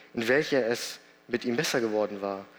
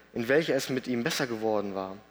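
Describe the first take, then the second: No difference in how they are said.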